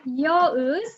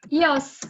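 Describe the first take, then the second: First: Both words are said in a reduced form. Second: The words are merged into one short syllable. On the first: An informal way to say I am. "you could say yo is" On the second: A very informal way to say I am. "you can even make this shorter and say yos"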